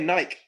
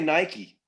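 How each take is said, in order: First: It is said the European way. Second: It is said the non-European way. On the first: "they say Nike" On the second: "everybody in Europe doesn't say Nike"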